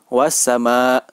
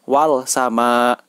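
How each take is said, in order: First: The L merges into a doubled S sound. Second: The L is pronounced clearly before the S. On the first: The speaker calls it right. "langsung kepada huruf sinnya" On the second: The speaker calls it wrong. "tidak boleh dibaca"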